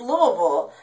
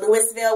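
First: Some letters of the name are dropped. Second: Every letter of the name is pronounced. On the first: The speaker calls it right. "there's some letters missing in there, but it's Louisville" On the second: The speaker calls it wrong. "which is just disgusting. That is not how you say it"

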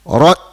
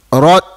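Both takes have the same delivery.

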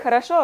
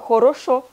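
First: The unstressed vowels are reduced, not clear o. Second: The unstressed vowels are pronounced as clear o. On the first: "Не хорошо" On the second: "а хорошо, она говорит. Слышали это «о»?"

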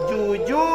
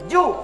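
First: The vowel is held long. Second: The vowel is said short. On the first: "maka dia dibaca pan panjang" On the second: "seperti ini masih ju"

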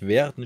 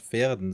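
First: The word begins with a voiced V sound. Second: The word begins with a voiceless F sound. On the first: The speaker calls it wrong. "dass es einen Bremer wehtut, wenn ich Verden statt Verden sage" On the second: The speaker calls it right. "Mit Fenster-V"

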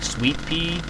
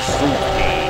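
First: The first part sounds like the word sweet. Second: The first part sounds like the word soot. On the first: "I always call it like sweet pea, as in the sweet, and then pea" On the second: "Like, not like S-U-I-T, like S-double-O-T"

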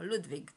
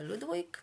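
First: The name is said with German pronunciation. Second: The name is said in a non-German way.

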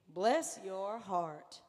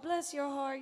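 First: It is said mockingly and sarcastically. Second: It is said warmly and sincerely.

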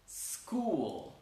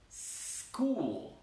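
No difference in how they are said.

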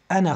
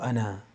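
First: The final vowel is short, running into the next word. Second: The final vowel is drawn out long at a stop. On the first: The reader continues on to the next word. "wenn du weiterliest, dann sagst du" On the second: The reader stops on this word. "aber wenn du drauf stoppst, dann sagst du ana"

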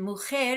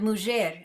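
First: The word is said with modern Castilian pronunciation. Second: The word is said with non-Castilian pronunciation.

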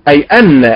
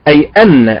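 Both takes have the same delivery.

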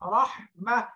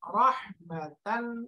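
First: The word ends with a soft -h sound. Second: The word ends with a full -tan ending. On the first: The reader stops on this word. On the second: The reader continues without stopping.

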